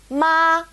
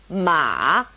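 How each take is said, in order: First: It is said with the first tone. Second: It is said with the third tone. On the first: "our first tone" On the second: "third tone"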